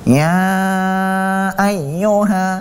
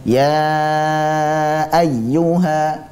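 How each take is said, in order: First: The sound comes out through the nose. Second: The sound comes out through the mouth. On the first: The speaker calls it wrong. "contoh bacaan yang salah yang keluar dari al-khayshum" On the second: The speaker calls it right. "yang betul harusnya adalah ya lewat rongga mulut"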